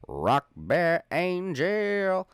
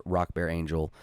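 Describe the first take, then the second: First: Drawn-out high shout-out; high, stretched-out call. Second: Said in the usual way. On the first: Acted. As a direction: sing the name out high and slow. Shout-out name said twice.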